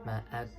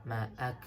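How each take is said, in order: No difference in how they are said.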